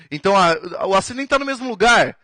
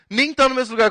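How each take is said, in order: First: Said in the usual way. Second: Much higher, tá hit hard; incredulous emphasis; emphatic repeat. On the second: Shown as a demonstration. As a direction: drive the point home with a high insistent repeat. Teacher repeats point for emphasis.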